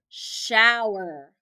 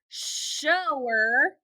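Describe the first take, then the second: First: The vowel sounds like 'ow'. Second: The vowel sounds like 'oh'. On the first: The speaker calls it right. "ow, er" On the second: The speaker calls it wrong. "O, er"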